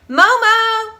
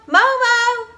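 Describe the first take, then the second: No difference in how they are said.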